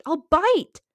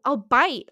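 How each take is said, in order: First: Higher, louder, hammed-up threat. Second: Loud playful threat. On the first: Threatening Little Huddy again, a higher hammed-up shout. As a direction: push it up higher and louder, hamming it. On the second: Threatening Little Huddy, a loud playful boast. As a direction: say it loud, half joking. Boasting she could fight him. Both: Real, not acted.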